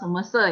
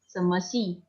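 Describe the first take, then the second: First: The last syllable is pronounced like 'se'. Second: The last syllable is pronounced like 'si'. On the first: The speaker calls it wrong. "Jangan seme se ya" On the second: The speaker calls it right. "X I dibacanya si"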